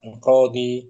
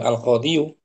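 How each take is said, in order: First: The word ends with a long ee sound. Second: The word ends with an extra yu syllable. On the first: The speaker calls it right. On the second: The speaker calls it wrong.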